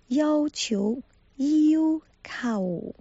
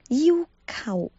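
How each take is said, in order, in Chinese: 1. 第二个音节是“求”的声调。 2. 第二个音节是“靠”的声调。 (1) "在这里是要求的意思" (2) "把"求"发成"call"。跟可靠的靠"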